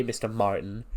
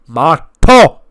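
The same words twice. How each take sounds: First: Said in the usual way. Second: Shouted "Mato", French silent N, stressed last syllable; loud, indignant "Mato" with a French ending; French pronunciation. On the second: Retold or imitated. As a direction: bark "Mato" in her face, French-style. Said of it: "he just gets in her face".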